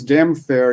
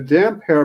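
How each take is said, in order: First: The second word starts with an f sound. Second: The second word starts with an h sound. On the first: This is how the narrator says the name. The speaker calls it wrong. "becomes damn fair" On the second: This is the name as actually written. The speaker calls it right. "it's simply damp hair"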